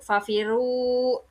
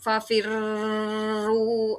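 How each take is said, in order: First: The r is single, with no doubling at all. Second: The doubled r is held for a long time. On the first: "kalau misalnya musyaddadnya tidak dibunyikan" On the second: "Tidak fafirru. Ah, itu kurang tepat ya, salah ya"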